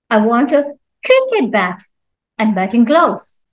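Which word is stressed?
cricket. The stress falls on the word cricket. It must be a cricket bat, not another bat. "Cricket means not anything else"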